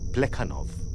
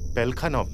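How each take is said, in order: First: The name starts with the sounds 'ple'. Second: The name starts with the sounds 'pel'. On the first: The speaker calls it right. "प्लेखानव ही होना चाहिए ना" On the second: The speaker calls it wrong. "पेलखानव नहीं"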